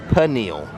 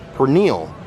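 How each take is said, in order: First: The word is said without an R sound. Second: The word is said with an R sound. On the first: The speaker calls it right. "Do not say the R sound" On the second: The speaker calls it wrong. "I used to call it the roasted pork pernil"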